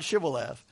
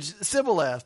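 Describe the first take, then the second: First: The word begins with an sh sound. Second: The word begins with a plain s sound. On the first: The speaker is from Gilead. The speaker calls it right. "not Shibboleth" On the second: The speaker is from Ephraim. The speaker calls it wrong. "They didn't say sh. They said s"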